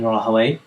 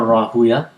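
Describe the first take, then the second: First: The name ends with an 'away' sound. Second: The name ends with a 'uya' sound. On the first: This is the Arabicized form used by jurists. "Rahaway is the uh, Arabicized um, version of the name" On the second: This is the original Persian form used by hadith scholars. "Rahuya is the original Persian um, pronunciation of the name"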